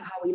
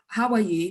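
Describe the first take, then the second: First: It sounds casual, like a passing greeting. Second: It sounds sincere and genuinely caring.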